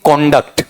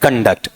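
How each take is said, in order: First: "कॉन्डक्ट" as KON-dakt, full first vowel; open, stressed KON at the start of "कॉन्डक्ट"; noun pronunciation. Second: "कंडक्ट" as kun-DAKT, weak first vowel; verb pronunciation. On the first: Teacher reading the word as a noun, noun pronunciation. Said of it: "noun में तो क्या पढ़ेंगे". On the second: Teacher reading the word as a verb, verb pronunciation. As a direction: reduce the first syllable of "कंडक्ट", stress DAKT. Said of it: "verb में पढ़ेंगे तो". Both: Shown as a demonstration.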